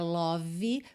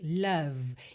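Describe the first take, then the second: First: The word ends with an extra vowel sound. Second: The word ends on a V sound. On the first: The speaker calls it wrong. "não é love, porque esse E final não é pronunciado" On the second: The speaker calls it right. "Percebe que eu termino o som na letra V"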